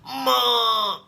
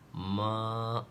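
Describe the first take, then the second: First: It is said sharply and angrily. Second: It is said in a drawn-out, coaxing whine.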